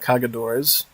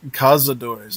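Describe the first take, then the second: First: The middle consonant is a 'g' sound. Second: The middle consonant is a 'z' sound. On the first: The speaker calls it wrong. "not Cagadores" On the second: The speaker calls it right. "That's Ca- Cazadores"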